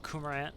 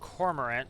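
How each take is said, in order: First: The R is dropped, Boston-style. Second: The R after the vowel is pronounced.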